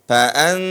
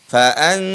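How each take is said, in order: No difference in how they are said.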